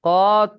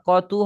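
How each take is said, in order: First: The word ends in a bare t sound. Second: The word ends in a tu sound. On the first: The speaker calls it wrong. "কত হবে না" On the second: The speaker calls it right. "টেনে পড়লে তু হবে"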